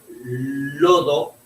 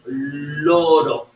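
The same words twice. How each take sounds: First: Said in the usual way. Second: Slow loro with an r in place of the d; child's misspeaking. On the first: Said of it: "En vez de decir". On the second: Shown as a demonstration. Therapist slowly imitating a child saying loro. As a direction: drag out loro, r instead of d. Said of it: "Con L, con R".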